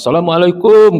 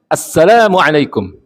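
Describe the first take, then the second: First: The final kum syllable is drawn out long. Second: The la syllable is long, kum is short. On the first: The speaker calls it wrong. "kumnya yang panjang nggak boleh" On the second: The speaker calls it right. "yang panjang la-nya"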